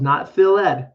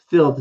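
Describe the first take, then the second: First: It ends with an extra vowel syllable. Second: It ends in a plain d sound. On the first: The speaker calls it wrong. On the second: The speaker calls it right. "I skip e and I make the d voice sound"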